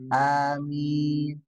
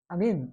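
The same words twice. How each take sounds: First: The first vowel is said long. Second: The first vowel is said short. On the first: It asks God to grant the prayer. The speaker calls it right. "Harusnya kan A-nya panjang" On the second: It means be silent or peaceful. The speaker calls it wrong. "berarti diam ya atau amin damai begitu ya"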